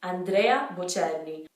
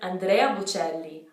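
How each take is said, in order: First: It is said with Italian sounds and vowels. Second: The same.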